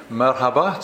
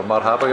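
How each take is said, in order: First: Merhaba with a flat English e, MER-ha-ba; first try at Turkish. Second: Marhaba with an open a, MAR-ha-ba; corrected Turkish. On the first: Greeting Turkish people, unsure, first try at merhaba. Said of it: "I think that's right, or marhaba". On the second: Self-correcting the Turkish greeting, marhaba said with open ah. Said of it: "I think that's right". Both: Shown as a demonstration.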